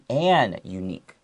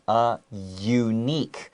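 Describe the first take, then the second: First: The article is said as 'an' before unique. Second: The article is said as 'a' before unique. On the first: The speaker calls it wrong. "it should be an unique, right?" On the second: The speaker calls it right. "it sounds like it starts with a Y"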